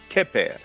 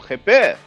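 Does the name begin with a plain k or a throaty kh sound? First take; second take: k; kh. First: It begins with a plain, hard k sound. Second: It begins with a rough, throaty kh sound.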